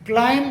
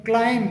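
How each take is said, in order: The two takes are said the same way.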